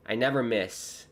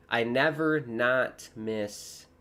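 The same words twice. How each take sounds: First: Said in the usual way. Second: Slow, careful slip of wording; drawn out, still saying the double negative "never not"; wrong wording. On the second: Shown as a demonstration. Streamer slowly repeats his own slip, wording "never not miss". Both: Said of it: "I should say, I never miss".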